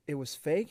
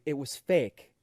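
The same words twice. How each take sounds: First: "fake" lifted in a rising question. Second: "fake" landing with a falling tune; reassuring statement. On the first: Upset child checking with the comedian, rising question on "fake". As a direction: ask "It was fake" with a hopeful rise on "fake". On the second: Comedian consoling an upset child, "fake" falling reassuringly.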